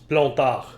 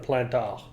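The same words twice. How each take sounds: First: The name is said with a French pronunciation. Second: The name is said with a non-French pronunciation. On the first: The speaker calls it right. "It's Plantard" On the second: The speaker calls it wrong. "You pronounced the name wrong"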